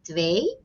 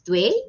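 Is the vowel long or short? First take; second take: long; short. First: The vowel is stretched out long. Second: The vowel is short and clipped. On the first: The speaker calls it right. "you make it a bit longer" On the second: The speaker calls it wrong. "you don't say it twee"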